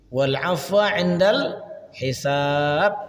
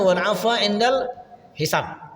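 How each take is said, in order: First: The second vowel of hisab is held long. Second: The second vowel of hisab is said short. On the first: The speaker calls it right. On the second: The speaker calls it wrong.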